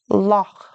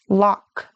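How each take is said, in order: First: The final sound is a soft breathy rasp. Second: The final sound is a hard K stop. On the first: The speaker calls it right. "but it's softer like" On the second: The speaker calls it wrong. "You might be tempted to pronounce it like a K"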